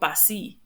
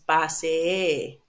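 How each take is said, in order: First: The final vowel is changed, not a long e. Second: The final vowel is a long, held e. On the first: The speaker calls it wrong. "It's not pasi" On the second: The speaker calls it right. "A longer E to indicate that you have two"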